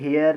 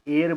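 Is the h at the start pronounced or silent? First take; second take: pronounced; silent. First: The word starts with an audible h sound. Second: The word starts with a vowel, no h sound. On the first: The speaker calls it wrong. "हेयर नहीं बोलेंगे" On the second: The speaker calls it right. "एयर बोलते हैं इसको"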